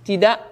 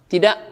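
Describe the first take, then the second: The two takes are said the same way.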